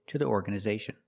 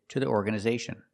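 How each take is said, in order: No difference in how they are said.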